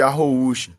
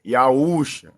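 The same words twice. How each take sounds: First: Arroúxa with a guttural rr after the a; Arroúxa pronunciation. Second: Iaúxa with a plain open ee-ah start; Iaúxa pronunciation. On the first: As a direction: say Arroúxa with a throaty h-like rr. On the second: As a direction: say Iaúxa starting on a clear I vowel. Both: Shown as a demonstration. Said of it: "uns chamam de Arroúxa".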